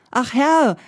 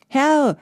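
First: Ach Herr called high and loud, falling; pleading call of ach Herr; calling out again. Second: Higher, louder call of Herr; a carter calling Herr to a rider. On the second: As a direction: Herr called out high and loud. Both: A narrator's reading. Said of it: "rief der Fuhrmann".

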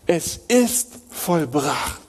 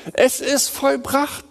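First: Hushed solemn. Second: High, slow, declaring vollbracht; triumphant proclamation. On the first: Closing solemn restatement. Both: Acted.

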